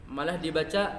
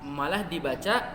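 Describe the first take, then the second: Both takes have the same delivery.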